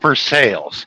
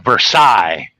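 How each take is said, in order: First: It is said with a local American pronunciation. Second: It is said with a French pronunciation. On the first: This is how people in the Ohio town say it. "we pronounce it Versailles" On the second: This is how it is said in France. "in French, ... it's Versailles"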